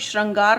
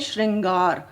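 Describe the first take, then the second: First: The r is followed by an 'a' vowel. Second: The r is followed by a light 'i' vowel. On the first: The speaker calls it wrong. "हम इसको श्रृंगार नहीं बोलते" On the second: The speaker calls it right. "हल्की सी ई की ध्वनि निकलती है"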